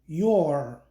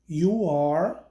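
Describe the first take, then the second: First: The two words are merged into one syllable. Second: Both words are said fully and separately. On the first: "forma contraída" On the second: "forma integral"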